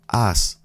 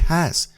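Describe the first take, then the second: First: The word begins with no h sound. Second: The word begins with an audible h sound. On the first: The speaker calls it right. "You say has estado" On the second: The speaker calls it wrong. "the H is silent. You don't say has"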